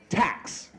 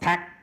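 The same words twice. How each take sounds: First: The final consonant is clearly released. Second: The final consonant is dropped or unreleased. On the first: The speaker calls it right. "that aspiration of that last consonant is hugely important" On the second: The speaker calls it wrong. "Not tax"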